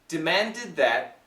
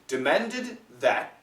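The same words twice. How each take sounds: First: The D merges into the TH sound. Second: The final D is clearly pronounced before 'that'. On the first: "But if we say it fast" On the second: "So perfect pronunciation"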